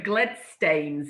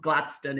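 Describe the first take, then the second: First: The name ends with a Scots 'stanes' sound. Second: The name ends with an English 'stone' sound. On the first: This is the older original form of the name. "the old Scots pronunciation" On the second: This is the modern English form of the name. "the anglicised sort of modern pronunciation"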